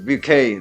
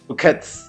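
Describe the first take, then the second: First: The final consonant is left silent. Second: The final consonant is pronounced aloud. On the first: The speaker calls it right. "but it's bouquet" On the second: The speaker calls it wrong. "we want to pronounce it like bouquets"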